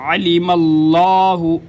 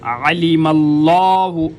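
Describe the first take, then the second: Both takes have the same delivery.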